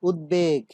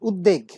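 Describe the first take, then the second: First: The b sound is fully pronounced after the d. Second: The b sound is dropped after the d. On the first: The speaker calls it right. "এই শব্দটির উচ্চারণ কিন্তু উদ্বেগ" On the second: The speaker calls it wrong. "আমরা অনেকেই আছি তারা বলে থাকি যে"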